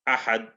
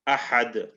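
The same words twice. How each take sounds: First: The final d stops without any echo. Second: The final d ends with a short echoing bounce. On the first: "if we didn't do qalqala on it" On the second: "if we did a qalqala"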